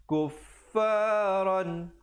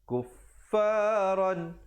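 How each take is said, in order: The two takes are said the same way.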